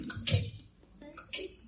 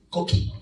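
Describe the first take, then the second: First: Quiet imitated frog chirp, fading away; a gentle imitation of the Puerto Rican coquí frog; soft coquí frog call. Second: Said in the usual way. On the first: Shown as a demonstration. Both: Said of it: "¿Qué suena así?".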